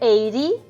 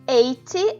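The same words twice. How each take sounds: First: It is said with an American accent. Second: It is said with a British accent.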